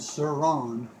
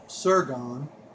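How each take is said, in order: First: The name ends with a 'ron' sound. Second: The name ends with a 'gone' sound. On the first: The speaker calls it right. "Not gone" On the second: The speaker calls it wrong. "I think that's how you pronounce it"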